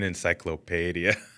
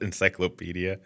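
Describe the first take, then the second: First: It is said in a fancy, pretentious-sounding way. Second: It is said in the plain, everyday way. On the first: "An encyclopedia" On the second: "Instead of encyclopedia"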